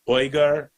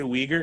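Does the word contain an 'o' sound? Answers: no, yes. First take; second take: yes; no. First: The word is said with an 'o' sound. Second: The word is said without an 'o' sound. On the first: This is the proper way to say it. "but it's Uyghur" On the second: This is the everyday way people say it. "I say Uyghur because colloquially that's how we say it"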